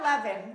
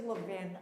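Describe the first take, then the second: First: Levin said as LEH-vin, short e as in bed; wrong pronunciation. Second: Levin said as LEE-vin, long ee as in see; correct pronunciation. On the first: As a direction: Levin with a short open e, stress on the first syllable, LEH-vin. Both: Shown as a demonstration. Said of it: "if any of you are pronouncing it Levin".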